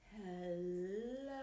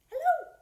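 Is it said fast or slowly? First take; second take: slowly; fast. First: It is said slowly. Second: It is said fast.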